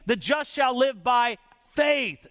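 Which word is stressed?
faith. The word faith carries the main stress. The focus is on faith. "That's the emphasis there"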